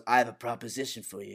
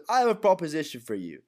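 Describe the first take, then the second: First: Understated mobster quote; Luca. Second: Higher-pitched acted offer; put-on, lifted gangster delivery; mistaken Alfie voice. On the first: Retold or imitated. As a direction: make the offer quietly in character, pitched down. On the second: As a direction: pitch the quote up in a character voice. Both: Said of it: "well, Lucas says that".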